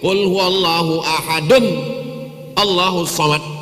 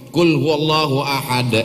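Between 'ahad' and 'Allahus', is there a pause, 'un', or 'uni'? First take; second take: un; pause. First: 'Ahadun' is followed directly by 'Allahus'. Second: There is a stop after 'ahad'.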